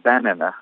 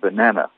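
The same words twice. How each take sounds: First: The stress is not on the second syllable. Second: The stress is on the second syllable. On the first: The speaker calls it wrong. "vous ne pouvez pas dire banana" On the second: The speaker calls it right. "il faut dire banana, avec l'accent au milieu sur la deuxième syllabe"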